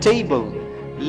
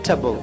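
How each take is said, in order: First: The vowel is said fully as 'tay'. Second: The vowel is reduced to a short 'tbl'. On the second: "वो reduced हो जाता है और बनता है टबल"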